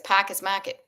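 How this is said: It is said in a Boston accent. "my Boston accent looks at that and says"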